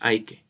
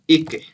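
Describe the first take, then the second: First: The term begins with an 'eye' sound. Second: The term begins with an 'ee' sound. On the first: This is how other people say it. "Some people call it I K" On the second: This is the speaker's own way of saying it. "but me I call it E K"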